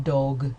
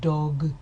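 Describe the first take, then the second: First: The consonants are strongly voiced throughout. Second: The consonants are strongly voiced throughout.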